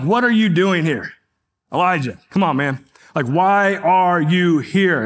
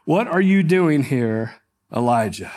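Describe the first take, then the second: First: Sharp, scolding demand; harsh accusing tone. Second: Said in the usual way. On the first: Shown as a demonstration. Preacher mocking an accusing reading, harsh tone. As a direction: snap the question like a scolding parent. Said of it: "It's this very harsh tone". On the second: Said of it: "we read it in this very accusatory manner".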